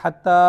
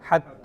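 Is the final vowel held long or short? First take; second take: long; short. First: The final vowel is stretched out long. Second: The final vowel is held only briefly. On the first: The speaker calls it wrong. "കുറേ നീട്ടി നിർത്തരുത്" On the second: The speaker calls it right. "ഒരു ലിഫി നീട്ടാവൂ"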